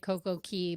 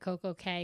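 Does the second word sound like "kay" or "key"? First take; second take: key; kay. First: The last word rhymes with "see". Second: The last word rhymes with "say". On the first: The speaker calls it right. "I pronounce it Key like the Bahamians" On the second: The speaker calls it wrong. "I hate calling it Coco Cay because that's wrong"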